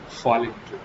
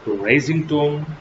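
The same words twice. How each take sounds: First: "falling tone" dropping lower and softer. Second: "Rising tone" slowly, voice held up at the end; slow demonstration of "Rising tone", kept up. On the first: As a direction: let "falling tone" sink away softly. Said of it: "you have to fall your voice". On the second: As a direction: lift and sustain "Rising tone". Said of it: "you have to raise your voice". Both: Shown as a demonstration.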